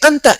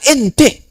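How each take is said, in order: First: The vowels are pronounced as an open a. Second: The vowels are pronounced as a fronted e. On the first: "Ada yang nggak bisa A, bisanya pakai E terus" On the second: "bisanya pakai E terus"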